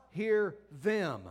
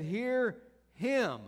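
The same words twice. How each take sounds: First: Said in the usual way. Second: "Hear him" with HIM hit and falling firmly; stress on him. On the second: Shown as a demonstration. Preacher correcting to God's words, stress on him. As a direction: land hard on "him" with a falling close. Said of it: "He said".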